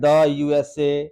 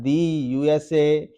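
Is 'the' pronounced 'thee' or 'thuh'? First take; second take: thuh; thee. First: 'The' is said with a short 'thuh' sound. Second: 'The' is said with a long 'thee' sound. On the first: The speaker calls it wrong. "अब ऐसा नहीं बोलना है" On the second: The speaker calls it right. "कैसे बोलना है"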